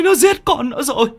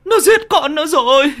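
First: High anguished wail; bitter wailing. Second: Bitter wailing. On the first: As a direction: cry out the horror, sobbing. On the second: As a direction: cry it out again, harder. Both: A narrator's reading. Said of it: "gào lên chua xót".

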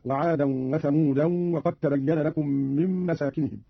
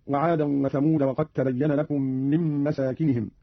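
First: وثمودا ending in -an; thamudan with nunation. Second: Said in the usual way. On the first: Shown as a demonstration. Teacher demonstrating Qalun's nunation on ثمود. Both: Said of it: "بتنوين ثمود هكذا".

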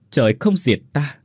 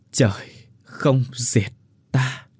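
First: Said in the usual way. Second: Very slow, drawn-out last breath; slow dying words. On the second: Acted. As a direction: let the line fade out with life. Final words before dying. (chậm rãi hấp hối)

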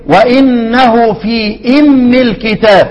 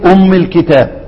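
First: "أم" read as imm with kasra after في, slow. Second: "أم" read as umm with a rounded u; umm with damma. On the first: Teacher showing students the kasra reading, slowly. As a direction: join في to "أم" so it becomes imm. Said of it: "يبقى هنقول ايه؟". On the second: Teacher showing students the damma reading of umm. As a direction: start fresh on "أم" with damma, umm. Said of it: "هبدأ اقول ايه؟". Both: Shown as a demonstration.

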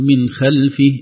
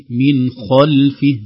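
First: خلفه said with a thin kha; the mistaken خلفه, its kha too light; wrong light kha. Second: خلفه recited slowly with a full heavy kha. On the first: Teacher to students, showing a wrongly light kha. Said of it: "لا نقول". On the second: Teacher to students, modelling a heavy kha. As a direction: make the kha of خلفه thick, raising the back of the tongue. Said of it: "هنا نفخم الخاء". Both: Shown as a demonstration.

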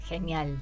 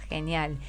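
Both takes have the same delivery.

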